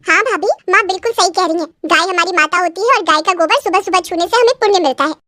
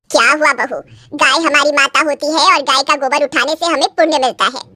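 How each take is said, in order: First: Lightly voiced nanad backing her mother; a hint of a preachy younger woman; agreeing sister-in-law. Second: Lightly voiced sanctimonious saas; a hint of a lecturing elder; preachy mother-in-law. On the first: Sister-in-law echoing mother's cow lesson, lightly preachy. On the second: Mother-in-law telling bride the cow is sacred, lightly preachy.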